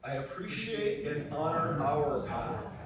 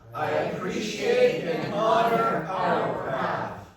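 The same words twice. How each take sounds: First: It is said calmly, with ordinary energy. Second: It is said loudly, with lots of energy.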